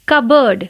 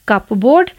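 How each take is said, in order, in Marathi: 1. मधे p चा आवाज नाही. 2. मधे त्याचा स्पष्ट p चा आवाज आहे. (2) "कपबोर्ड नहीं"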